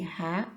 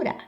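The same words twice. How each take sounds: First: Rá with a throaty, H-like R; strong R. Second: Rá with a light tapped R; soft R. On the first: Teacher explaining the letters R A, rá with throaty R. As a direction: sound rá with R from the throat. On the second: Teacher explaining the letters R A, rá with tapped R. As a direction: flick the tongue once for the R in rá. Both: Shown as a demonstration. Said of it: "o R A pode ser".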